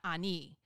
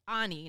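First: The stress is on the last syllable. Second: The stress is on the first syllable. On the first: The speaker calls it wrong. "I've put an accent on the I for our whole friendship" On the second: The speaker calls it right. "it's Ani"

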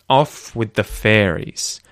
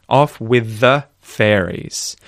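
Both takes have the same delivery.

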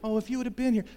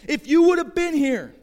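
First: It is said gently and kindly. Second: It is said angrily and harshly.

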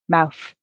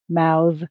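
First: The final th sound is voiceless. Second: The final th sound is voiced. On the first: It is used as a noun. "the noun has the voiceless sound" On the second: It is used as a verb. "the verb, the voiced sound"

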